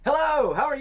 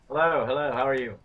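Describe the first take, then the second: First: It is said with lively enthusiasm. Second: It is said flatly, without much enthusiasm.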